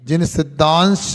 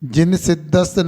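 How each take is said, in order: First: A nasal sound comes before the final sh. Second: There is no nasal sound before the final sound. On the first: The speaker calls it right. "अनुस्वार पूर्वक श हो जाएगा" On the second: The speaker calls it wrong. "नहीं"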